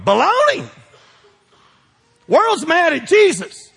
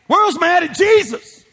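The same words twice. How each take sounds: First: Preaching emphasis. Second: World's hit high and loud, slow; stress on World's. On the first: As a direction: declare it with full force. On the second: Preacher repeats it hitting World's, loud and slow. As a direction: lean on World's harder. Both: Real, not acted.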